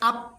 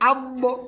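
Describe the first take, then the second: First: The final consonant stops flat with no bounce. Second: The final consonant ends with a short echoing bounce. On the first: The speaker calls it wrong. "তাহলে কিন্তু এটা সম্পূর্ণভাবে ভুল হয়ে যাবে" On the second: The speaker calls it right. "এরকমভাবে"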